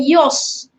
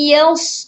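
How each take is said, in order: First: The vowel after y is a thick, rounded o. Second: The vowel after y is a thin, open a. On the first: The speaker calls it wrong. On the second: The speaker calls it right.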